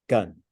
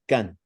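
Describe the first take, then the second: First: The word is said with a low tone. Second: The word is said with a high tone. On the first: "So a low tone gun" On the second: "what is a high tone gun?"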